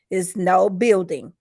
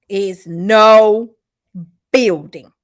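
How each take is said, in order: First: Said in the usual way. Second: Loud, drawn-out "no", pause, then "building"; stress on "no". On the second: Real, not acted. Host repeats the verdict to viewers, "no" stretched and stressed. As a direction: hit "no" hard and set "building" apart.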